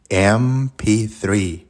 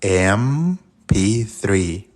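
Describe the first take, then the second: First: Said aloud very slowly. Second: Very slow M P three to hear the first sound; slow demo again. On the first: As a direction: stretch out M P three, each sound long. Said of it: "dilo en voz alta". (decir "M P three" muy despacio, alargando cada sonido) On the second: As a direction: draw out "M P three" slowly. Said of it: "¿Escuchaste?". ("M P three" muy lento, marcando el sonido inicial) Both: Shown as a demonstration.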